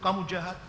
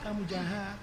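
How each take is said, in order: First: It is said loudly and forcefully. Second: It is said quietly and softly. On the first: The conscience protests strongly after the first sin. "suara fuadnya keras sekali" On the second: The conscience weakens after repeated sins. "fuadnya pelan-pelan"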